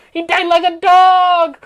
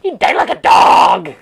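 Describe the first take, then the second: First: Loud, at normal pitch; a loud triumphant announcement; loud declaration. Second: Much lower, loud declaration; a loud, low-voiced proclamation; low shout. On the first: Acted. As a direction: announce it loudly in your own register. Same line repeated at normal pitch. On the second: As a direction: boom it out from low in the chest. Exclaimed twice, first take low.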